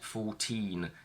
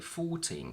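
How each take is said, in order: First: The stress is on the second syllable. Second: The stress is on the first syllable. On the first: The speaker calls it wrong. "I would have the stress on teen" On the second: The speaker calls it right. "the stress shifts to the front and we say"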